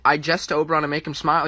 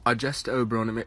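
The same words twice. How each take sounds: First: A quick, louder English accent on "I jest to Oberon". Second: Said in the usual way. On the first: Shown as a demonstration. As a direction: deliver the Shakespeare line in a stagey English accent. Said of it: "I did an accent". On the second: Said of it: "it just sounds better".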